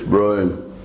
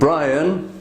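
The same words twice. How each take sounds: First: It is said in a deeper Yorkshire accent. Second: It is said in a standard English accent.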